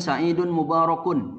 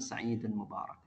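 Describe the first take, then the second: First: The last word ends with an added -un sound. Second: The last word ends without any added vowel. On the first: The speaker calls it wrong. "Tidak perlu kita ngucapin sa'idun mubarakun, jangan" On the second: The speaker calls it right. "Jadi cukup kita bilang sa'idun mubarak"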